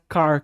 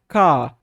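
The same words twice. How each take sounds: First: The final R is curled back, American style. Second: The final R is nearly silent, English style.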